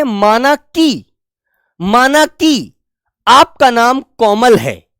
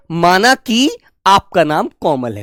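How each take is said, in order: First: Very slow, drawn-out माना कि, then a slow आपका नाम कोमल है; deliberate teacher's dictation pace; slow example sentence. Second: Said in the usual way. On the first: Shown as a demonstration. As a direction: dictate it slowly, stretching माना कि. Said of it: "तो हम कहते हैं". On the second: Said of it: "ठीक है".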